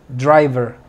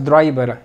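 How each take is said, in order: First: The middle consonant is a clear v sound. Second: The middle consonant is not a clear v. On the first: The speaker calls it right. "con V" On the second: The speaker calls it wrong. "No digas driver"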